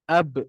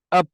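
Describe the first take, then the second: First: The final b ends with a bouncing release, lips parting. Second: The final b ends with a breathy puff, lips held. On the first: The speaker calls it right. "bila kita lantunkan dia" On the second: The speaker calls it wrong. "nafas dia terkeluar, dia akan jadi macam ni"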